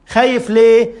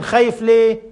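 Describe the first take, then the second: First: خايف ليه pressed louder, ليه stressed; louder challenge. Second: Said in the usual way. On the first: Real, not acted. The preacher challenging the atheist, pressing خايف ليه louder.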